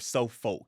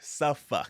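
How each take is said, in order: First: The ending sounds like 'folk'. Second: The ending sounds like 'fuk'. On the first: The speaker calls it wrong. "It's not" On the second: The speaker calls it right. "There's no folk. the F U K"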